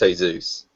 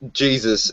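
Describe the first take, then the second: First: The name is pronounced the Spanish way. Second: The name is pronounced the English way. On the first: "if he's speaking Spanish to him, it's Jesus" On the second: "said Jesus in English"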